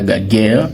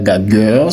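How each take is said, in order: First: It ends with a hard 'guerre' sound. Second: It ends with a hard 'gueur' sound. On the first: "ce n'est pas gaguerre" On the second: "ce n'est pas gagueur"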